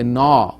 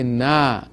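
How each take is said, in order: First: The syllable sounds heavy and thick. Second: The syllable sounds light and thin. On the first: The speaker calls it wrong. "we do not say na" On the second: The speaker calls it right. "this nun is harf istifal, ... we say na"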